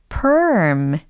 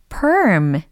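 Both takes have the same delivery.

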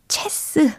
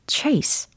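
First: It has a short e vowel and ends in s. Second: It has an ay vowel and ends in s. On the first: The speaker calls it wrong. "체스 아니고요" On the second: The speaker calls it right. "정답이 들립니다"

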